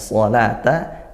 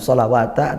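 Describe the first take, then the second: First: The word has no w sound, with a long vowel. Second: The word has a w sound before the ending. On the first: The speaker calls it right. "wawunya tidak dibaca, tapi dibaca panjang" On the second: The speaker calls it wrong. "bukan sholawata"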